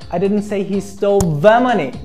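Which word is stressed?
the. The stress falls on the word the. A different sum of money was taken. "I meant another particular amount of money"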